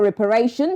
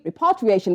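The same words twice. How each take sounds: First: "reparation" said for repatriation, without the -tri- syllable; misspoken word. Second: "repatriation" said in full with the -tri- syllable; self-correction. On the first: Anchor misreading the word as "reparation". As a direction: slip into "reparation", the wrong word. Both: Real, not acted. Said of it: "repatriation rather".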